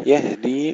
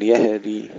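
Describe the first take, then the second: First: "يهدي" with airy ه straight into د; still, breathed ha. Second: "يهدي" as yahedi, vowel slipped after ه; wrong, bounced ha. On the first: Teacher shows the correct silent ha, breathed ha. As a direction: breathe the ه in "يهدي" without a bounce. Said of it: "نسكن الهاء مع الهمس". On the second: Teacher shows what we do not say, ha with qalqalah. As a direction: add an echo after the ه in "يهدي". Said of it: "بدون قلقلة". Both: Shown as a demonstration.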